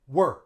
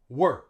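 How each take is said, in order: First: The vowel is reduced to a schwa. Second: The same.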